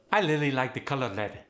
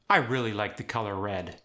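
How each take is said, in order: First: Khmer accent, R turned to L; Khmer-accented "really" as lily, "red" as led. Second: Said in the usual way. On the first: Shown as a demonstration. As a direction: soften every R to L, Khmer style. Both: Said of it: "The R was softened into an L".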